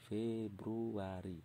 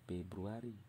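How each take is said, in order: First: The word begins with an F sound. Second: The word begins with a P sound. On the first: The speaker calls it right. "Ini, Februari" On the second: The speaker calls it wrong. "Bukan Februari. ... P ini salah"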